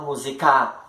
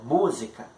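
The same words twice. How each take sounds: First: The stress is not on the first syllable. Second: The stress is on the first syllable. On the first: The speaker calls it wrong. "para não acontecer de você falar música, não" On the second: The speaker calls it right. "Mu ele é forte"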